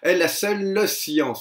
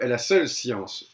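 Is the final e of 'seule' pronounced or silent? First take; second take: pronounced; silent. First: The final e of seule is pronounced aloud. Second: The final e of seule is dropped. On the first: The line keeps its full twelve syllables. The speaker calls it right. "On le prononce parce qu'on a besoin de ce pied-là" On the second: The line is one syllable short. The speaker calls it wrong. "dans un langage courant, une prononciation courante"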